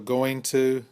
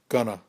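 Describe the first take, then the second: First: Both words are said fully and separately. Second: The words are run together and reduced.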